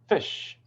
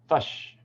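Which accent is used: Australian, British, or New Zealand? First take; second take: British; New Zealand. First: The vowel is a short British 'i'. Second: The vowel sounds like a central 'uh'. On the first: "in British English is usually I" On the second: "in New Zealand English, it often becomes a ah sound"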